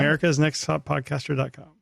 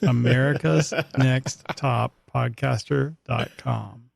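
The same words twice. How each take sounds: First: It is said fast. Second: It is said slowly.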